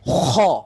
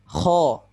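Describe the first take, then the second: First: The raspy friction is heavy and exaggerated. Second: The raspy friction is clear but moderate. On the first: The speaker calls it wrong. "itu terlalu berlebihan" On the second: The speaker calls it right. "Dia harus jelas. Kha terdengar suara seraknya, tapi tidak berlebihan"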